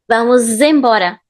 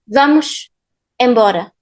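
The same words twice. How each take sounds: First: The words are linked with a z sound. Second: The words are separated, ending vamos with sh. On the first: The speaker calls it right. "the sound is z" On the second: The speaker calls it wrong. "It feels robotic"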